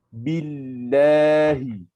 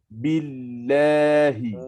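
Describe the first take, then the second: Both takes have the same delivery.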